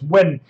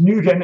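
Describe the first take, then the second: First: The name is said like 'win'. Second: The name is not said like 'win'. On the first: The speaker calls it right. "It's actually pronounced Win" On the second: The speaker calls it wrong. "I thought it was pronounced Nguyen"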